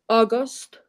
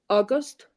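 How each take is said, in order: The two takes are said the same way.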